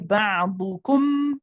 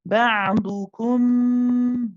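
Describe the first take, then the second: First: The lips press hard together on the m. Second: The lips close gently on a held, nasal m. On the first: The speaker calls it wrong. "So you don't press hard. You don't say" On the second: The speaker calls it right. "It's no pressing"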